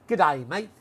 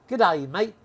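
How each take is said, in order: No difference in how they are said.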